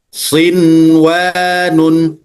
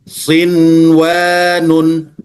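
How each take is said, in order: First: The n before the w is pronounced clearly. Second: The n before the w is pronounced clearly.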